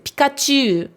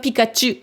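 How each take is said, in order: First: The final vowel is lengthened. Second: The final vowel is short. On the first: The speaker calls it right. "vous devriez mettre un allongement" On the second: The speaker calls it wrong. "C'est pas Pikachu en japonais"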